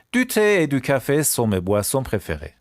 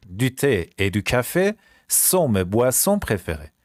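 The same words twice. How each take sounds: First: Said in the usual way. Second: Slow French, pausing between phrases; slow repeat. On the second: Shown as a demonstration. Teacher repeats the favourite drinks sentence, slowly. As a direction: break it up slowly for learners.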